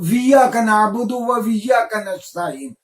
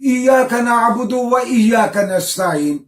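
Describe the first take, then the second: First: Each iyyaka begins with a w sound. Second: Each iyyaka begins with a plain vowel sound.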